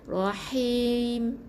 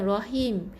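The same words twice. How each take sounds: First: The h is airy and strongly breathed. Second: The h is plain and light. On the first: The speaker calls it right. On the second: The speaker calls it wrong.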